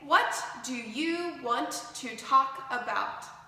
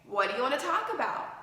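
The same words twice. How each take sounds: First: Each word is pronounced fully and separately. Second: The words blend into "whatcha wanna". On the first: The speaker calls it wrong. "But they don't say" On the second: The speaker calls it right. "they say, ... what do you combines to make what ya ... want to combines to make wanna"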